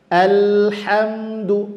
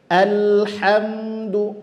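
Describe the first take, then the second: No difference in how they are said.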